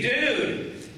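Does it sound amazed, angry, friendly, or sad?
friendly. It sounds like a friendly greeting.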